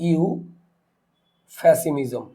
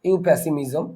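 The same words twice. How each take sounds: First: ইউফ্যাসিমিজম split after a long ইউ, then a pause; teacher slowly breaking ইউফ্যাসিমিজম into parts; sounded out slowly. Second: Said in the usual way. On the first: Shown as a demonstration. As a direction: stretch the ইউ, pause, then say ফ্যাসিমিজম. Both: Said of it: "তাহলে আমরা spelling করি".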